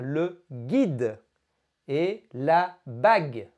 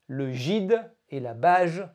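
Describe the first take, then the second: First: The g is said as a hard g. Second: The g is said as a soft g. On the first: The speaker calls it right. "si vous voulez faire gui et gueux, il va falloir rajouter un u" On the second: The speaker calls it wrong. "Si vous ne mettez pas le u, cela fera le gide et la bage, ce qui ne veut rien dire"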